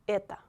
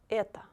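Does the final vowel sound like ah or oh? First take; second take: ah; ah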